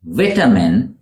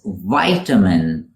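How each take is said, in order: First: "vitamin" said VIT-uh-min, rising; British "vitamin" with a short first vowel. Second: "vitamin" said VY-tuh-min; American "vitamin" with a long I. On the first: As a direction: start "vitamin" like "vit" in bit. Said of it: "What the British call". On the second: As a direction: start "vitamin" like "vie". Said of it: "in American English". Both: Shown as a demonstration.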